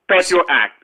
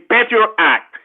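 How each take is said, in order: First: It is said at a normal, quick pace. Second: It is said slowly and deliberately.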